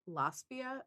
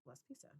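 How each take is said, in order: First: The name ends in -pia, with no s sound. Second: The name ends in -pisa, with an s sound. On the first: The speaker calls it wrong. "I thought for a long time it was" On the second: The speaker calls it right.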